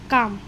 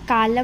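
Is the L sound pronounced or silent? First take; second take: silent; pronounced. First: The L sound is silent before the M. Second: The L sound is pronounced before the M. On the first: The speaker calls it right. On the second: The speaker calls it wrong.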